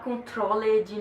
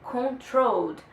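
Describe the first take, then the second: First: The -ed ending is said as an extra syllable. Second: The -ed ending adds no extra syllable. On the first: The speaker calls it wrong. "Vocês não me venham falar controlled" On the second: The speaker calls it right. "o E some"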